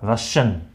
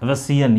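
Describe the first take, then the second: First: रशियन with a sh sound in the middle, "ra-shan"; रशियन spoken with sh; correct pronunciation. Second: रसियन with a plain s in the middle, "ra-si-yan"; the mistaken रसियन with s; wrong pronunciation. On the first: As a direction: say रशियन with sh, not s. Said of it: "इसका pronunciation है". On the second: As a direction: say रसियन with s instead of sh. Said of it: "ये नहीं होता". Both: Shown as a demonstration.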